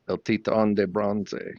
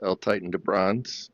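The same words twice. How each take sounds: First: It is said with a Cuban Spanish accent. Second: It is said with an American English accent. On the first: The caller is Cuban. "when the Cubans call, she says" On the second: The caller is American. "when Americans call, she says"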